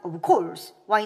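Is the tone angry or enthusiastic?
angry. It sounds angry and irritated.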